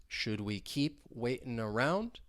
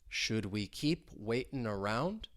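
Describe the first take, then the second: Both takes have the same delivery.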